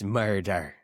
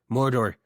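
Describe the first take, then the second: First: It is said in a Jamaican accent. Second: It is said in an Irish accent. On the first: "in Jamaica" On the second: "Murder in Ireland"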